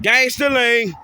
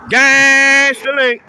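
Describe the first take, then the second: First: Said in the usual way. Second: "Gangster lean" stretched slow and loud; drawn-out gangster lean. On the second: Shown as a demonstration.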